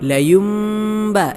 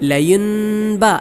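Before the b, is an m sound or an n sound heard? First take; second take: m sound; n sound. First: An m sound is heard before the b. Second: An n sound is heard before the b. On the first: The speaker calls it right. "സാക്കിനായ നൂനിനെയും അല്ലെങ്കിൽ തൻവീനിനെ മീമാക്കി മറിക്കണം" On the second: The speaker calls it wrong. "ചിലരോതുന്നത് പോലെ ലയുൻബ എന്നല്ല"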